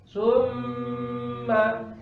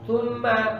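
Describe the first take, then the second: First: The doubled m is held for three beats. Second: The doubled m is held for two beats. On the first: "ritmenya dibaca tiga" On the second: "Kalau dua"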